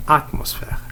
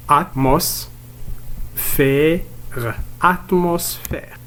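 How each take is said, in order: First: Said in the usual way. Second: "Atmosphère" broken into at, mos, fè, re; teacher's syllable-by-syllable "Atmosphère"; split into syllables. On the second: Shown as a demonstration. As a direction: sound out "Atmosphère" slowly with long gaps. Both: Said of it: "on va le découper en syllabes".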